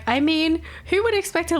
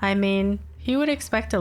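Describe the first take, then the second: First: The voice is lively and engaged. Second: The voice is flat and weary. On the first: She is interested in the conversation. "Instead of like" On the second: She is sick of the conversation. "the tone is just like so dead inside"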